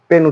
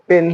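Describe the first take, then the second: No difference in how they are said.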